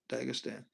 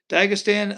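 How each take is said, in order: First: Dagestan said softer, low and trailing off; Dagestan, tried quietly; muttered to himself. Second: Dagestan said louder and higher, like a proclamation; Dagestan, declared out loud; announced firmly. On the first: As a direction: sound out Dagestan under your breath. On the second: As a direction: call out Dagestan with confidence. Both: Shown as a demonstration. Trying out an unfamiliar name.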